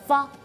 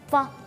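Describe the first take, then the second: The two takes are said the same way.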